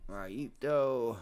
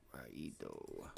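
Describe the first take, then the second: First: Said in the usual way. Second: Deep drawn-out murmur. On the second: Real, not acted. Repeating the word at the chart.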